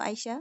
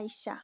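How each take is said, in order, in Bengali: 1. মাঝের ব্যঞ্জনটি 'sh' উচ্চারণ। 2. মাঝের ব্যঞ্জনটি সাধারণ 's' উচ্চারণ। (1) "আমার মেয়ের নাম তো আইসা" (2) "এখানে বলে আইসা"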